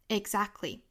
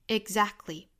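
The two takes are said the same way.

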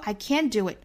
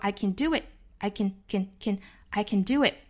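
First: The word can has its full, unreduced vowel. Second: The word can is weakly reduced. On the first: The speaker calls it wrong. "我们不说 I can do it" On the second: The speaker calls it right. "我们说 I can do it，它都是虚词弱读式"

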